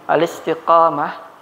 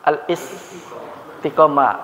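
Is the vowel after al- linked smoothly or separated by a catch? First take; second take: linked; separated. First: Al- runs straight into the next vowel without a break. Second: A glottal catch separates al- from the next vowel. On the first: The speaker calls it right. "Jadi cara bacanya langsung saja" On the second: The speaker calls it wrong. "Biasa kita bilang apa? ... Sebenarnya hamzanya bukan hamzah qata'"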